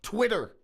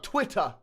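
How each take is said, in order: First: "Twitter" with the T tapped like a D and an American R; T pronounced as D. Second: "Twitter" with a crisp T and no final R; mock British "Twitter", hard T in the middle; crisp T pronunciation. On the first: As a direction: say "Twitter" as "Twidder". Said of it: "we pronounce our T's as D's". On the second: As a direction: say "Twitter" as "twit-tah". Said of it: "it's not Twitter". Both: Shown as a demonstration.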